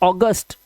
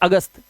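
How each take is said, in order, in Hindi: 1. यह एक खुले 'aw' स्वर से शुरू होता है। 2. यह एक छोटे 'uh' स्वर से शुरू होता है। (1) "इंग्लिश में इसको बोलते हैं ऑगस्ट" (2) "ये तो हिंदी का शब्द है अगस्त"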